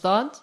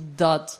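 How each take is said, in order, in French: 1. La lettre se prononce à la manière tunisienne. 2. La lettre se prononce à la manière proche-orientale. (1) "je le prononce dhad, parce que je suis tunisienne" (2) "au Proche-Orient, on dit dhad"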